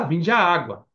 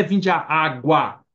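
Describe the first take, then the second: First: Said in the usual way. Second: Slow "vinde à água"; deliberate, slow stress on "água"; singular ÁGUA. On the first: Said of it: "Podia falar". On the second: Shown as a demonstration. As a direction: stretch out "água" without a final s. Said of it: "por que tá no plural?".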